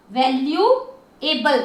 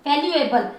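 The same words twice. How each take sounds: First: valuable slowly, as value and एबल; drawn-out, segmented valuable; syllable by syllable. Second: Said in the usual way. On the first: Shown as a demonstration. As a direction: sound out each part of valuable. Teacher splits word into syllables.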